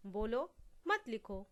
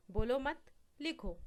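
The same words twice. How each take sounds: First: बोलो on its own, pause, then मत लिखो together; pause after बोलो. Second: बोलो मत run together, pause, then लिखो alone; pause after मत. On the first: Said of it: "केवल विराम चिन्ह के माध्यम से". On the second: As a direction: join बोलो to मत, stop, then give लिखो separately. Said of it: "यहाँ पे दूसरा उदाहरण है". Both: Shown as a demonstration.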